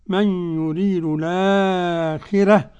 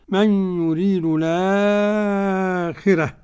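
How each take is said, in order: First: The vowel after the hamza is held medium length. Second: The vowel after the hamza is held long. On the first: "وتوسط" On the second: "ومد"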